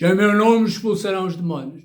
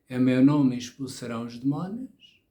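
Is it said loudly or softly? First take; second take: loudly; softly. First: It is said loudly and forcefully. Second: It is said quietly and softly.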